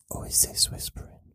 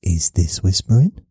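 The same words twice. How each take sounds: First: Soft breath-only whisper. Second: Said in the usual way. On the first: Shown as a demonstration. Contrasting real whispering with talking, whispered. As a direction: drop right down to whisper it. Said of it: "This is whispering". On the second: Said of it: "this is not whispering".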